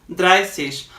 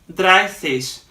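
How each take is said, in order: No difference in how they are said.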